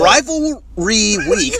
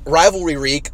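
First: The phrase is said slowly and carefully. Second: The phrase is said at a normal pace.

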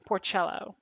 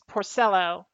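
First: The name sounds like the mushroom's name. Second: The name does not sound like the mushroom. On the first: The speaker calls it wrong. "It's not Porcello, like the mushroom" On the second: The speaker calls it right. "It's Porcello"

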